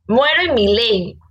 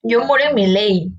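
First: "Muero en mi ley" said slowly, each word weighted; slow emphatic repeat. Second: Said in the usual way. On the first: Shown as a demonstration. Repeating her motto to a friend, slow and emphatic. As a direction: lean on "Muero en mi ley" to drive it home.

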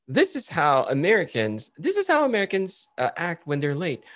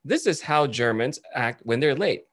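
First: High-pitched retold skit intro, Americans' turn; imitated TikToker on Americans. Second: Slow, measured retold skit intro, Germans' turn; imitated TikToker on Germans. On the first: TikToker showing how Americans act when late, high mock voice. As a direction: present the Americans in a raised skit voice. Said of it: "there's this TikToker who go". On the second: TikToker showing how Germans act when late, slow and measured. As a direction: present the Germans slowly and deliberately. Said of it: "And he goes".

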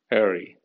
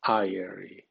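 First: "airy" said as AIR-ee, first syllable like air. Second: "airy" said as EYE-ree, first vowel the name of the letter I. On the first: Teacher demonstrating an English word to Spanish learners, carefully. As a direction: say "airy" with the vowel of air, then a light ee. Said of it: "en A suena airy". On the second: Teacher showing the letter-I sound to Spanish learners, carefully. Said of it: "suena con el nombre de la letra I". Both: Shown as a demonstration.

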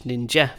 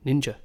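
First: "ninja" ending in an open eh, lifted at the end; Danish ending. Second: "ninja" ending in a neutral uh, falling; English "ninja" with a relaxed final schwa. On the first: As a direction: say "ninja" the Danish way, nin-jeh. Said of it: "And Danish". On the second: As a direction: say "ninja" the English way, nin-juh. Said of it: "In English, you might say". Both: Shown as a demonstration.

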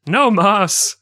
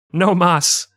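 First: "No mas" pitched much higher, put-on voice; hammed-up "No mas". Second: Said in the usual way. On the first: Shown as a demonstration. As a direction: squeal "No mas" in a mock voice. Repeating phrase, second exaggerated.

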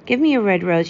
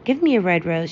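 First: Higher and louder pleading cry. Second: Said in the usual way. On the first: A narrator's reading. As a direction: call out eagerly to the rose tree. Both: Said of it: "she cried".

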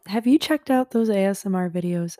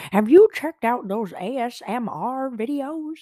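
First: Said in the usual way. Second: High, loud mock-grandma voice. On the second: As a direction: ham it up like an out-of-touch grandma. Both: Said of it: "I'm such a grandma".

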